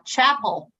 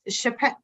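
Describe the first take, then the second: First: The name is said with stress on the first syllable. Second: The name is said with stress on the second syllable. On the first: The speaker calls it right. "It's uh, Chapel" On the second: The speaker calls it wrong. "I'm going to pronounce it wrong. I was already corrected"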